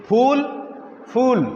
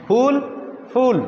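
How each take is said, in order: Both takes have the same delivery.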